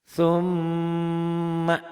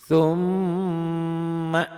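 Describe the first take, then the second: No difference in how they are said.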